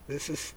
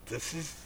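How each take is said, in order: Both takes have the same delivery.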